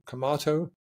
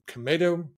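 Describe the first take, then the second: First: Tomato said "ku-MAH-to", hard k at the start; broad-A version. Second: Tomato said "ku-MAY-to", hard k at the start; long-A version. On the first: Weighing up which way to go, tomato as "ku-MAH-to". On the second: Weighing up which way to go, tomato as "ku-MAY-to". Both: Shown as a demonstration. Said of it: "I say it both ways".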